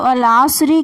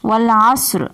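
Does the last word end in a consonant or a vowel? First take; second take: vowel; consonant. First: The last word ends with a final 'i' vowel. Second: The last word ends on a bare 'r' sound. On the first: The speaker calls it wrong. "এখানে রয়েছে ওয়াল আসরি" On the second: The speaker calls it right. "রয়ের উপরে সাকিন হয়ে যাবে"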